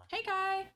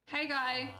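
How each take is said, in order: First: High coaxing lure, pitched way up; luring voice. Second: Said in the usual way. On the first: Acted. Luring a villager toward the trolley, high coaxing call. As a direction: sweet-talk the creature in like bait. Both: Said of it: "My luring voice is truly horrible".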